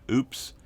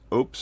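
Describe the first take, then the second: First: The word is said with a long 'oo' vowel. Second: The word is said with a short 'o' vowel. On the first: The speaker calls it wrong. "and not OOPS" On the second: The speaker calls it right. "that is the way that they pronounce it on their website"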